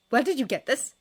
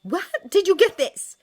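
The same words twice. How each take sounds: First: Raised, urgent demand; sharp, insistent question. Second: Very loud, high, furious demand; escalated, yelled question; demanding shout. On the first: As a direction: demand an answer, louder and higher. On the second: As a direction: shout the demand at full force. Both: A narrator's reading. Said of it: "she demanded".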